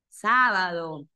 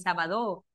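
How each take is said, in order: First: The stress falls on the first syllable. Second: The stress falls on a later syllable. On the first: The speaker calls it right. "Está en la antepenúltima sílaba" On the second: The speaker calls it wrong. "No es sábado"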